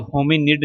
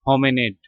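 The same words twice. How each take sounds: First: होमिनिड with a short "i" in the last syllable; wrong pronunciation. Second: होमिनिड said with "e" for the "i", like "ho-me-ned"; corrected pronunciation. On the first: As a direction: say होमिनिड as spelt, ending "-nid". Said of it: "नहीं पढ़ना है इसको". (होमिनिड के आख़िर में छोटी इ वाला गलत उच्चारण) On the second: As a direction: carefully model होमिनिड ending in "-ned", not "-nid". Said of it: "pronounce करते वक्त पढ़ेंगे". (होमिनिड में आई की जगह ई (e) वाला सही उच्चारण) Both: Shown as a demonstration.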